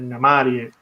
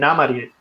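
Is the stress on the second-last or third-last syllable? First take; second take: third-last; second-last. First: The stress falls on the third-last syllable. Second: The stress falls on the second-last syllable. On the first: The speaker calls it right. "es Namarie, ... las demás todas esdrújulas" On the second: The speaker calls it wrong. "pues no es Namarie"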